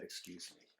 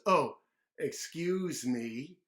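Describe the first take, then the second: First: Soft polite whisper; gentle whispered manners; whispered excuse me. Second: Loud, slow cheeky excuse; show-off mock politeness; loud mocking apology; loud drawn-out excuse me. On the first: Shown as a demonstration. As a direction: say it quietly and politely. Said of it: "made a small burp and then said". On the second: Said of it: "a big giant burp".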